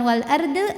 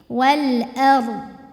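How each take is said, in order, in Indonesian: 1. Bunyi r digetarkan dengan lidah yang memantul. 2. Bunyi r ditahan tanpa pantulan sama sekali. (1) "ro-nya dipantulin" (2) "jangan sampai mantul"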